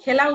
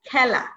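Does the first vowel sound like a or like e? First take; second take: like e; like a. First: The first vowel is a plain e sound. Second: The first vowel is an open a-like sound. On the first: The speaker calls it wrong. "এখানে খেলা উচ্চারণ হবে না" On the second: The speaker calls it right. "এ এর উচ্চারণ আ এর মতো হয়"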